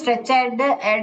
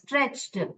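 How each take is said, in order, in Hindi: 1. -ed अंत एक अलग अक्षर के रूप में बोला जाता है। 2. -ed अंत बिना अतिरिक्त अक्षर के जुड़ जाता है।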